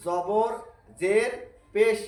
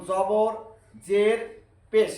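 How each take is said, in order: Both takes have the same delivery.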